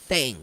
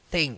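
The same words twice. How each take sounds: Both takes have the same delivery.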